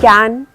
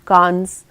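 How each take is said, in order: First: The word ends without an s sound. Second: The word ends with an s sound. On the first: The speaker calls it right. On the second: The speaker calls it wrong.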